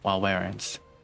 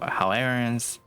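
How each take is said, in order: First: The name begins with a W sound. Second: The name begins with an H sound. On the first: The speaker calls it right. "they're pronouncing it as a W, like wow" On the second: The speaker calls it wrong. "Keep calling it Howlerans"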